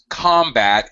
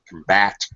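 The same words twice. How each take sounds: First: The stress is on the first syllable. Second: The stress is on the second syllable. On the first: It is used as a noun. "First syllable stress when the word is a noun" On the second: It is used as a verb. "Second syllable stress when it's a verb"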